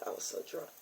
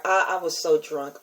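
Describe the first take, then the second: First: Secretive whispered aside. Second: Said in the usual way. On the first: Real, not acted. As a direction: breathe it out, barely voiced. Repeated confession, dropped to whisper.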